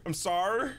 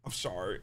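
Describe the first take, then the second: First: Cursive apology with a rising end; Maya. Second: Low, soft cursive apology; Maya. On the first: Game girl apologising to Phoenix, cursive voice lifting at the end. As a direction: curl "sorry" upward in cursive voice. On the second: Game girl apologising to Phoenix, low soft cursive voice. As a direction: drop low and quiet, vowels slightly slurred. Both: Acted. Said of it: "introduce her cursive voice".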